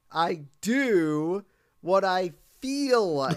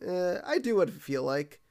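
First: "I do what I feel like" stretched slow, "feel" held long; slow savoring echo. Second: Said in the usual way. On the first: Retold or imitated. Brad repeats Bart's words to the crowd, slow and loud. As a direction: savor every word like a revelation. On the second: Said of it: "He's like".

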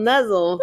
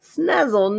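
First: "nuzzle" starting straight on n, pitched high; no s sound. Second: "Snuzzle" with an s before the n, pitched high; added s sound. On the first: Co-host testing a disputed word, "nuzzle" high with bare n onset. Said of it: "I said nuzzle". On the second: Co-host testing a disputed word, "Snuzzle" high with sn onset. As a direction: say "Snuzzle" high, starting on a clear sn. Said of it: "Which one is it?". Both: Shown as a demonstration.

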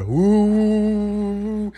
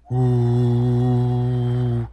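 First: Long "ooh" rising to a much higher drone; louder fan whir imitated. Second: Long, steady "ooh" drone; imitated fan whir. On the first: Opening the door on the fans, higher imitated whir. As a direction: imitate fans roaring up in pitch. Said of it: "It gets louder". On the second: Hearing fans outside the new apartment, imitated steady whir. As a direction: hum like fans heard through a door. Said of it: "I don't know how that comes out on the mic".

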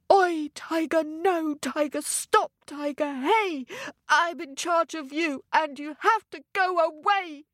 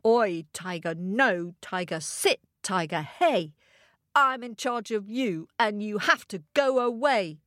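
First: High, urgent telling-off of a tiger; commanding rhyme. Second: Controlled, composed telling-off of a tiger; measured rhyme. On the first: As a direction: chant a firm order at the tiger. Ted commands his tiger with rhyme. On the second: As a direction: recite the order to the tiger calmly. Calmer closing recital of the rhyme. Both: Acted.

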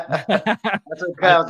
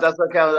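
First: Laughing. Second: Said in the usual way. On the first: Real, not acted. Laughs at host's bad Spanish.

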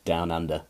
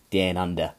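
First: Said in the usual way. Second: DOWN squashed to "dan" in fake Australian; badly faked Aussie "down under", with a flattened DOWN vowel; Australian impression, drawing DOWN toward "day-an"; bad Australian accent. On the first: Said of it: "as they say". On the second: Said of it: "Terrible impression of an Australian".

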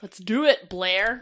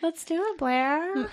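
First: Forceful, low rallying call; aggressive. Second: Oddly high, softened retry; an awkward, higher-pitched go at sounding gentler; weird. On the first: Real, not acted. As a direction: say it like an aggressive order. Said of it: "That sounded really aggressive". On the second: Acted. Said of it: "That sounded weirder".

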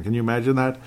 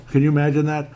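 First: Said in the usual way. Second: Higher and a bit louder with disbelief; mock-outraged repeat of the question; incredulous emphasis. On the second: Real, not acted. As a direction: push the question up in playful disbelief.

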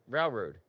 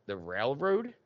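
First: "Railroad" with the L swallowed, like "rau-road"; dropped L. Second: "railroad" questioned with a clearer L; corrected L. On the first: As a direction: say "Railroad" Philly style, no clear L. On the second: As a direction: mimic a puzzled listener restoring the L in "railroad". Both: Retold or imitated. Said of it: "You didn't say your L".

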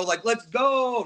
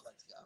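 First: Slow, louder cheer; let's go; hype cheer. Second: Said in the usual way. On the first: Shown as a demonstration. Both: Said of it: "Not like to hurry you up".

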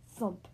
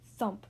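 Both takes have the same delivery.

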